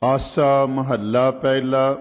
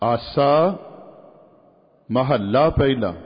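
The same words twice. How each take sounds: First: The words run together with no pause. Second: There is a short pause after the first word. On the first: The raag name and the author are read as one unit. The speaker calls it wrong. "ਨਹੀਂ" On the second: The raag name is kept separate from the author. The speaker calls it right. "ਥੋੜ੍ਹਾ ਜਿਹਾ ਵਿਸ਼ਰਾਮ ਦੇਣਾ, ਰੁਕਣਾ"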